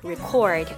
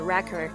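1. 重音在第二个音节。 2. 重音在第一个音节。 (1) "但是如果你要说我去记录某件事儿，我们会用record" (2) "或者唱片的那个我们叫做record"

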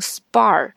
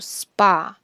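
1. 这个单词结尾多了一个r音。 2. 这个单词结尾没有r音。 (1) "很多同学会把它读成SPA" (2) "应该读SPA"

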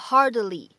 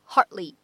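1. d 音是完全爆破。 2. d 音是轻微爆破。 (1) "你不用读成hardly，这样反而不太好听" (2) "它本身就包含了一个不完全爆破……直接呢读成一个hardly 就可以了"

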